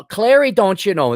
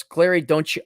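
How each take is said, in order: First: Raised, lilting Minnesota accent. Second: Said in the usual way. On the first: Shown as a demonstration. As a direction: open with a put-on Minnesota "don't you know". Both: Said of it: "This is the Minnesota accent".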